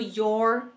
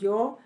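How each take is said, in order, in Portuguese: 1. Sotaque americano, com som de R no final. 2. Sotaque britânico, sem som de R no final. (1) "E no americano" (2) "o R é porque no britânico eles não pronunciam"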